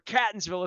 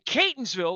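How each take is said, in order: First: It uses an unusual, nonlocal pronunciation. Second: It uses the usual local pronunciation. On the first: The speaker calls it wrong. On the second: The speaker calls it right.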